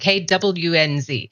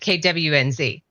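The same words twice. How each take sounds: First: The letters are carefully and fully enunciated. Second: The letters are said in a casual, reduced way. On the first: The speaker calls it right. "I had to sit there and practice" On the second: The speaker calls it wrong. "instead of"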